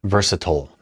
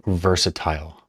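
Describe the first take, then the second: First: "Versatile" rhyming its last syllable with turtle; versatile ending like "tull". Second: "versatile" with a full "-tile" last syllable; versatile ending like "tile". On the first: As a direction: say "Versatile" as VER-suh-tull. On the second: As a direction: say "versatile" with a long i, VER-suh-TILE. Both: Shown as a demonstration. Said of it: "How do you say it?".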